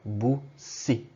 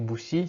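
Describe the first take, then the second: First: The s sound in the middle is held long. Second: The s sound in the middle is short. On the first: The speaker calls it right. "qu'on entende bien les deux S" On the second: The speaker calls it wrong. "si vous dites juste bussi, ça sonne pas très bien"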